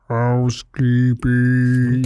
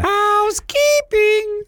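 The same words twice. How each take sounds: First: It is said in an eerie Lurch-like voice. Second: It is said in a normal voice.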